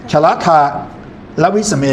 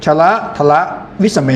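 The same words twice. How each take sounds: First: "ชละทะ", pause, then "และวิสเม"; wrong word break. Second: "ชละทละ", short pause, then "วิสเม"; phrase break only between "ชละทละ" and "วิสเม"; correct word grouping. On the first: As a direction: cut "ทละ" in two with a pause after "ทะ". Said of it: "ก็ไม่ควร". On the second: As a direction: keep "ทละ" whole before "วิสเม". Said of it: "เมื่ออ่านต้องได้เป็นคำด้วย". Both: Shown as a demonstration.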